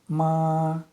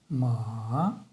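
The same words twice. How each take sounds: First: The pitch stays high and level. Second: The pitch dips low, then rises. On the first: "прямой тон" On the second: "нисходящий и восходящий тон"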